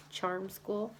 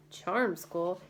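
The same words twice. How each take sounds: First: Said in the usual way. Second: Disbelieving repeat, rising at the end, a bit louder; incredulous echo. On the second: A narrator's reading. Moose mocking Annie's answer about Piper, incredulous. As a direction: scoff at the idea with a question. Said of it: "That's a laugh".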